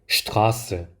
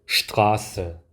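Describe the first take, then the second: Both takes have the same delivery.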